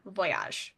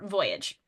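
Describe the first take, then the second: First: The word has a French pronunciation. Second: The word has an English pronunciation.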